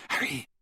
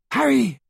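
First: Hushed, faraway calling; distant call. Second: High, loud cry of the name; urgent shout. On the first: Friend calling Harry out of his vision, soft and distant. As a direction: softly call the name from far off. First call through the door. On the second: Friend calling Harry out of his vision, loud and high. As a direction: shout it to rouse him. Louder call through the door. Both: A narrator's reading.

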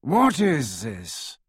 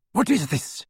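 First: Slow, drawling aristocrat. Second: Icy, haughty lady; a chilly noblewoman at the door; cold woman's voice. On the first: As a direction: drag the words out disdainfully. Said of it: "dreadfully familiar, drawling voice of Lucius Malfoy". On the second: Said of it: "said a woman's cold voice". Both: A narrator's reading.

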